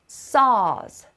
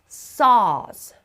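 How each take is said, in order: Both takes have the same delivery.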